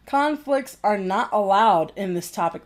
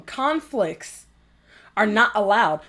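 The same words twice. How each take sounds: First: Said in the usual way. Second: Mock official edict, broken by a pause; mocking quote. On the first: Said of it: "And it says". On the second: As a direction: mimic their rule, pausing after "Conflicts". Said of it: "Listen to them".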